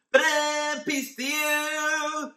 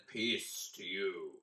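First: Much higher, louder, slow sung-out ta-da entrance; over-the-top fanfare greeting. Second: Softer and slower, quietly reassuring; gentle calm greeting. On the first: Teacher joking how Jesus might have greeted them, hammed-up fanfare. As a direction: burst in with a comic fanfare. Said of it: "maybe he said it like that". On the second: Teacher trying Jesus greeting the disciples gently, soft and slow. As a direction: say it softly, like calming frightened friends. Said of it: "Maybe he said". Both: Pretend.

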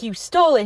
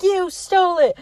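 First: Understated accusing quote; matter-of-fact blame; retold accusation. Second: Imitated heated comeback; insistent accusation. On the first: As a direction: state the accusation at an everyday pitch. Retold accusation, first take. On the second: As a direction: hit YOU high, pressing the charge. Retold accusation, insisted second time.

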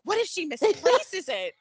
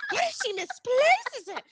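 First: Said in the usual way. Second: Higher, sarcastic echo of the question; mocking repeat. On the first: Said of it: "I'm like". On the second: Fan mocking Curtis over the paper, sarcastic. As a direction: throw it back at him with scorn. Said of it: "I was so effing angry".

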